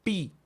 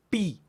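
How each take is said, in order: First: "pi" again with clear lip closure; repeated "pi" demo. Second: "pi" with a crisp popping lip burst; demo "pi". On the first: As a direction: show the lips on "pi" once more. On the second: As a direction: pop the lips on "pi". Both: Shown as a demonstration. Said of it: "miren el movimiento de los labios".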